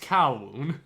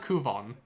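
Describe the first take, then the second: First: The name is said as 'Kowloon'. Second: The name is said as 'Kuvon'. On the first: The speaker calls it right. "it's Kowloon" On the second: The speaker calls it wrong. "it's not Kuvon"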